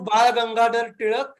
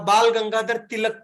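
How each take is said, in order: First: The L sounds are retroflex, tongue curled back. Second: The L sounds are plain, tongue not curled. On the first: The speaker calls it right. "a word called ळ, ळ in Marathi" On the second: The speaker calls it wrong. "they literally try to circumvent it"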